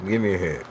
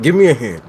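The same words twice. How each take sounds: First: Much softer, trailing repeat; soft muttered ask; quiet plea. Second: Louder, pushing ask; emphatic begging; louder plea. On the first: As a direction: murmur it to yourself. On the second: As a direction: press the chat for a hint. Pleading with chat. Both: Real, not acted.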